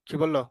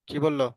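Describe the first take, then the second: No difference in how they are said.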